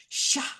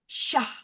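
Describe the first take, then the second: The two takes are said the same way.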